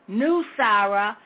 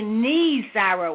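First: The first syllable sounds like 'new'. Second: The first syllable sounds like 'knee'. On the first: The speaker calls it wrong. "I've been saying the wrong, been saying New Sarah" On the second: The speaker calls it right. "it took me I don't know how long to learn to say Knee Sarah"

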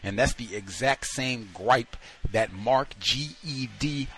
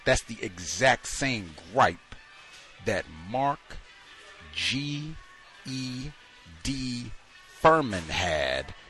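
First: It is said at a quicker pace. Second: It is said at a slow pace.

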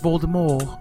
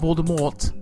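First: The name ends without a T sound. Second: The name ends with an audible T sound. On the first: The speaker calls it right. "the T is silent. It's Voldemort" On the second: The speaker calls it wrong. "not Voldemort"

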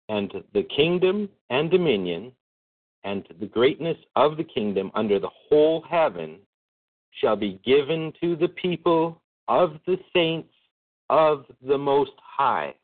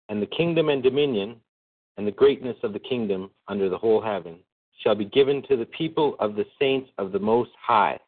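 First: It is read slowly. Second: It is read at normal speed.

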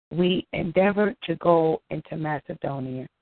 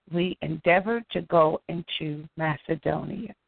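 The two takes are said the same way.

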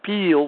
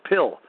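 First: The vowel is long and stretched, like peel. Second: The vowel is short, like a plain pill.

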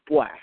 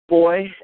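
First: It is said in a Jamaican Patois accent. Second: It is said in a standard English accent.

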